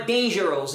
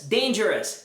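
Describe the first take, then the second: First: "dangerous" ending in a round -ohs; spelling-based "dangerous" with a full O; wrong pronunciation. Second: "dangerous" with a short -us ending; correct pronunciation. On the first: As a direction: say "dangerous" as DAYN-jer-ohs. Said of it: "não é dangerous". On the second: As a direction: say "dangerous" as DAYN-jer-uhs. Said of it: "É famous". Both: Shown as a demonstration.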